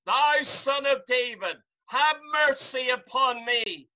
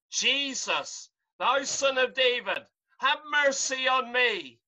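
First: Louder, more insistent plea for mercy; crying out even louder. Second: Rising plea that ends in a shout on mercy; crying out. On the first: Bartimaeus crying louder to Jesus despite the crowd, shouting. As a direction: cry over the crowd that told him to hush. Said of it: "He cried the more a great deal". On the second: Blind Bartimaeus calling to Jesus from the crowd, shouting. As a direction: call out to Jesus passing by. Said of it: "he began to cry out". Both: Retold or imitated.

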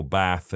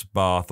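First: "bath" with the short A of "cat". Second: "bath" as "bahth", slow and deliberate; long-A bath. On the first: Narrator shows the other variant, short-A "bath". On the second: Narrator shows one variant to listeners, long-A "bahth". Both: Shown as a demonstration. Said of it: "I deviate between something".

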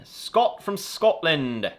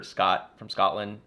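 First: High, loud mock-Scottish accent; bad Scottish accent. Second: Said in the usual way. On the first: Greeting a viewer from Scotland, in a bad Scottish accent. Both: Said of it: "I don't know why I did that accent".

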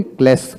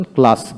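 First: ক্লাস with front "e", "klaes"; rejected pronunciation. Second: ক্লাস with open "aa", "klaas"; preferred pronunciation. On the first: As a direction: say ক্লাস as "kless". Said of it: "ক্লাস বলি না আমরা". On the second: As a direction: say ক্লাস with a long "ah". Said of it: "ক্লাস বলি". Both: Shown as a demonstration.

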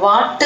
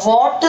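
First: "what" with open a, like "waat"; mistaken vowel. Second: "what" with rounded short o, like "wot"; correct vowel. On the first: Teacher showing students the error, "what" as "waat". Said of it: "what എന്ന് പറയരുത്". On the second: Teacher showing students the right sound, "what" as "wot". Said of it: "what എന്ന് പറയാം". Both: Shown as a demonstration.

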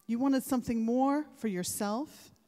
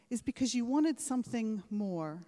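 First: Wanted punched louder with a rise; stress on wanted. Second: Said in the usual way. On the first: Real, not acted. Speaker presses graduates on their ambition, wanted stressed louder. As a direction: lean hard into wanted, building.

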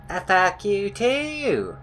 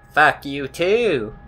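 First: High, slow, stretched-out comeback; silly singsong mock retort. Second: Slow, stretched-out comeback; mock-petty, drawn-out retort. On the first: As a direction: pitch it up and drag out the last word. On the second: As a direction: drag the words out, last one falling. Retort, repeated in silly voice.

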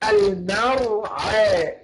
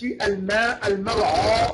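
First: المرعى slowly, thin fronted vowel after ع; light ain. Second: المرعى with a dark "aa" after ع; wrongly heavy ain. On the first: Teacher modelling the correct المرعى, slow and light. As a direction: draw out المرعى, keeping ع light. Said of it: "يبقى نقول إيه؟". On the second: Teacher showing what not to say, المرعى with heavy ع. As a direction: thicken the end of المرعى. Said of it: "غلط". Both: Shown as a demonstration.

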